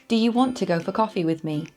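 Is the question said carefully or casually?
carefully. It is said carefully and fully.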